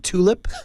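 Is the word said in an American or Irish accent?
American. The t is a plain t sound.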